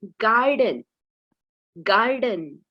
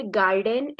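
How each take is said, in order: First: गार्डन with a weak "uh" ending, "gar-dun"; गार्डन said correctly as "gar-dun"; right garden. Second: गार्डन with a full "e" in the last syllable, "gar-den"; गार्डन said wrongly as "gar-den"; wrong garden. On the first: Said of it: "हमें क्या pronounce करना है". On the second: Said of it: "ऐसा नहीं बोल सकते". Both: Shown as a demonstration.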